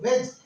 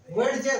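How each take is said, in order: First: वेज said as one syllable, d silent; correct pronunciation. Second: वेडजे with the d sounded, ve-d-je; wrong letter-by-letter reading. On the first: Teacher to class, correct silent-d वेज. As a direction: say वेज like wedge, no d. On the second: Teacher to class, deliberately wrong spelled-out वेडजे. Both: Shown as a demonstration. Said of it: "वेडजे नहीं है ये".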